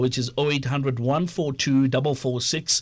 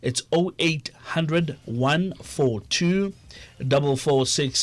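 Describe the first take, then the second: First: The number is said at normal speed. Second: The number is said more slowly.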